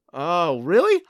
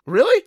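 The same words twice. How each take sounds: First: Said in the usual way. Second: High, loud incredulous echo; surprised. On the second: Acted. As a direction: shoot up in disbelief. Disbelieving echo.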